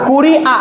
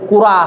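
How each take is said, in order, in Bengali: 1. হামযা একটি পূর্ণ কণ্ঠ-স্টপ হিসেবে উচ্চারিত হয়। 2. হামযার জায়গায় দীর্ঘ 'আ' স্বরধ্বনি বসে। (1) "হামদার উচ্চারণ করলে কি হবে কুরি আ" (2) "আলিফ হলে কি হবে কুরা"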